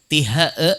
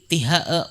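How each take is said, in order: The two takes are said the same way.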